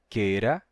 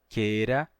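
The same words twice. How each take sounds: No difference in how they are said.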